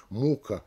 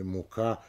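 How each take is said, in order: First: "мука" stressed on МУ; stress on first syllable. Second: "мука" stressed on КА; stress on last syllable. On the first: Lecturer showing meaning change, first-syllable "мука". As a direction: lean on МУ in "мука", lower and softer. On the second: Lecturer showing meaning change, end-stressed "мука". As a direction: save the beat for КА in "мука". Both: Shown as a demonstration. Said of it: "на какой слог падает ударение".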